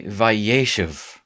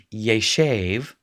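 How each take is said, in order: First: Vayeshev with the stress pulled forward onto YE; accent moved forward. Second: Yeshev with stress on the last syllable, SHEV; final-syllable stress. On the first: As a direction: say Vayeshev as va-YE-shev. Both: Shown as a demonstration. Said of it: "the accent is gonna show up on the first syllable".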